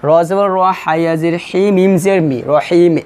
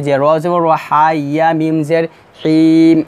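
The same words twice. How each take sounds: First: The correct letter-by-letter spelling; right spelling. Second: The wrong way, মিম জের হিম; wrong spelling. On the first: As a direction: spell মিম জের মি clearly. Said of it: "এইভাবে বানান করতে হবে". (সঠিক বানান) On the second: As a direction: spell ending হিম, drawn out. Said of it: "এভাবে বানান হবে না". (ভুল বানান) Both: Shown as a demonstration.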